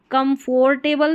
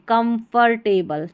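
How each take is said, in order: First: "कंफर्टेबल" as kum-FOR-table; "कंफर्टेबल" with a rounded O; wrong pronunciation. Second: "कंफर्टेबल" as kum-fur-table; "कंफर्टेबल" with a schwa second vowel; correct pronunciation. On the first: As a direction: say "कंफर्टेबल" with a full "for" in the middle. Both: Shown as a demonstration. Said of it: "कंफर्टेबल नहीं पढ़ेंगे".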